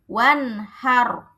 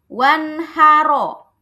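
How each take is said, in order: First: The word ends on a thick, silent r. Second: The word ends with a short vowel after r. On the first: The reciter stops at this word. "Kalau mau berhenti dibacanya apa?" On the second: The reading continues without stopping. "ro-nya ini sebenarnya dia harokatnya fathah"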